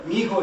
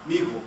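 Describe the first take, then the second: First: "Mijo" said higher and louder. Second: "Mijo" said low and short; lower mijo. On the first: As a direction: lift "Mijo" up brightly. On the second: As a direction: drop the pitch on "Mijo". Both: Shown as a demonstration. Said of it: "is what?".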